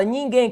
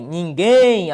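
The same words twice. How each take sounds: First: Said in the usual way. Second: "Ninguém" with GUÉM loud and drawn out; stress on last syllable. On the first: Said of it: "Qual que é a ordem?". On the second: Shown as a demonstration. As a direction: push hard on the end of "Ninguém". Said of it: "A sílaba tônica recai sobre a última". ("Ninguém" com o GUÉM forte e alongado)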